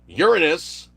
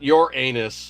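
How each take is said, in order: First: It does not sound like 'your anus'. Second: It sounds like the phrase 'your anus'. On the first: The speaker calls it right. "which is actually the correct pronunciation" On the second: The speaker calls it wrong. "not your anus"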